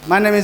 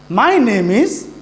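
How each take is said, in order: First: The voice stays flat like a robot. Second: The voice rises and falls naturally. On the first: The speaker calls it wrong. "We should not talk like a robot. If we say like" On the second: The speaker calls it right. "Listen to me how I say these sentences"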